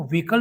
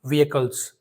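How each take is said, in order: First: व्हीकल said as two syllables, "vee-kal"; wrong pronunciation. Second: व्हीकल्स said in three syllables, "vee-uh-kuls"; correct pronunciation. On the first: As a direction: run the vowels of व्हीकल together into one long "vee". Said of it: "इसको व्हीकल नहीं पढ़ते हैं". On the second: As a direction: split the first vowels of व्हीकल्स into "vee-e", then "kals". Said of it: "इसे हम पढ़ेंगे". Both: Shown as a demonstration.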